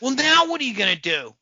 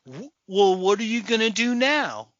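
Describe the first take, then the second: First: Higher, louder stagey challenge; mock movie delivery. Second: Higher-pitched, stagey question; mock movie delivery. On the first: Ridiculing unnatural film dialogue, louder mock delivery. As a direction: punch out the reworded line mockingly. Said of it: "who says that to anybody?". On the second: Mocking a line nobody says, stagey delivery. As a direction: pose it like stilted film dialogue. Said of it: "instead of like".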